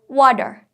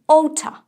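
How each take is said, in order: First: It is said in an American accent. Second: It is said in a British accent. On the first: "Or if you prefer American, then say" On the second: "If you prefer British accent, then say"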